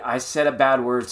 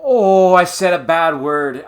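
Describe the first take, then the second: First: Said in the usual way. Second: Loud, slow, high gasp of fake dismay; mock shocked. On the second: Caught swearing on the livestream, hammed-up dismay. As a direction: clutch your pearls over your own swearing.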